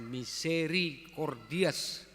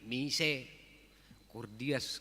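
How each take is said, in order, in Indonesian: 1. Kata ini tetap punya suku kata 'ri'. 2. Kata ini menghilangkan suku kata 'ri'. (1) "jangan salah ucap ya" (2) "Jangan hilang rinya"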